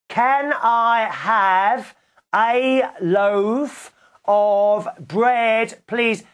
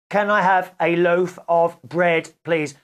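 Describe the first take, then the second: First: It is said very loudly, nearly shouted. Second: It is said louder than before.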